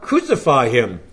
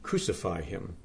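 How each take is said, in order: First: Restrained crowd cry, firmly voiced; a mild outcry at ordinary pitch. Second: Much softer, lower echo of a cry; quiet, understated crowd echo; hushed outcry. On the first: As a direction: read the crowd's demand firmly. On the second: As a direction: let the repeated cry drop almost to a murmur. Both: A narrator's reading. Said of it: "They cried out".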